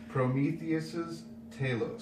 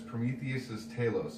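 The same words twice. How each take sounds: First: The name is said slowly and deliberately. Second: The name is said at a normal pace.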